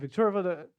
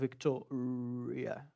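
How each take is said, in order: First: The word is said quickly and rushed. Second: The word is said slowly and carefully. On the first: The speaker calls it wrong. "A intenção não é você sair correndo" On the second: The speaker calls it right. "Vai devagar"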